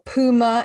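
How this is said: It is said in an American pronunciation.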